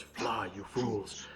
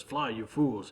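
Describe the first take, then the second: First: Very slow, softer grave wizard voice; solemn mock Gandalf, stretched out; famous Gandalf line. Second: Said in the usual way. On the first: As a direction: draw the words out like a dying wizard. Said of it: "he utters the famous words". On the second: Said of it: "And Frodo says".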